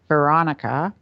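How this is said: The voice sounds held back and tight in the throat. The speaker is holding back what she wants to express.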